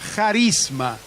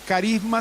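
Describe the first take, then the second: First: The word begins with a raspy J sound. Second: The word begins with a hard K sound. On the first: This is the Greek form. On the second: This is the Spanish form.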